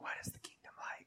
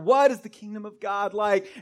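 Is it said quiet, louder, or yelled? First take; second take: quiet; louder. First: It is said quietly and low. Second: It is said a little louder.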